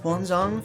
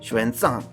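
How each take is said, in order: First: The name begins with an h sound. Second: The name begins with an sh sound. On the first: The speaker calls it wrong. "I always forget how to fucking pronounce that" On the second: The speaker calls it right. "the X makes the Shu"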